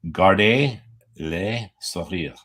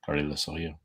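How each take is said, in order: First: It is said slowly. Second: It is said at normal speed.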